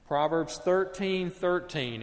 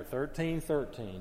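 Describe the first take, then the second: First: "thirteen thirteen" said slowly, higher, each word leaned on; slow emphatic reference. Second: Said in the usual way. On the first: Shown as a demonstration. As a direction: spell out "Proverbs thirteen thirteen" deliberately so it sticks. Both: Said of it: "easy reference to remember".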